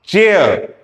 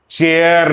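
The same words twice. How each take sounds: First: चेयर with the vowel gliding into ə; right pronunciation. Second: चेयर said flatly, no glide; the mistaken चेयर students say; wrong pronunciation. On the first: Teacher showing the correct English word, careful. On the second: Teacher showing the version to avoid, plain. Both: Shown as a demonstration. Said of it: "नहीं".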